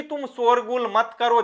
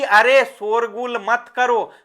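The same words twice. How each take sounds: First: Said in the usual way. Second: Mild, half-hearted teacher's call; slow, mildly raised call to children; पुकारकर कहना. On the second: Shown as a demonstration. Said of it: "जोर से बोल दिया". (हल्के ज़ोर से टोकना)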